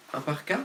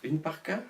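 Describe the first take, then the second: First: Un parka, masculine article, rising question. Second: Une parka, feminine article, softer rising question. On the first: Vlogger weighing the gender of parka: un parka, rising. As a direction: try un parka with a questioning rise. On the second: Vlogger testing the feminine form: une parka, softly rising. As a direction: try une parka, quieter and unsure. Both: Shown as a demonstration. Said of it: "Féminin ou masculin parka?".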